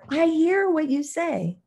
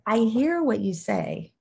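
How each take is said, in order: First: It is said loudest of the three. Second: It is said somewhat louder.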